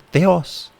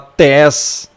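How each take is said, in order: First: An e then an o follow the t. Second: Only an e vowel follows the t. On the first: The speaker calls it right. "aqui é literalmente teos" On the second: The speaker calls it wrong. "você não vai falar tes"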